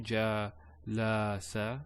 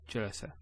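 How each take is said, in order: First: An a vowel is drawn out long. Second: Every a vowel is short and quick. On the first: The speaker calls it wrong. "Not jalasa or jalasa. No" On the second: The speaker calls it right. "There's no elongation"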